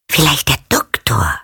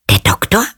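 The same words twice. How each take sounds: First: Falling answer. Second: Questioning rise. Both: A narrator's reading. Girl pondering aloud.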